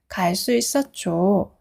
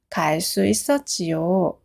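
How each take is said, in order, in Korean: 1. 그 어미는 줄여서 짧은 한 음절로 발음해요. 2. 그 어미는 두 음절로 풀어서 발음해요. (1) "짧게 줘라고 하면 돼요. 그게 더 자연스러워요" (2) "문법 책을 보면 동사 지요라고 되어 있는데"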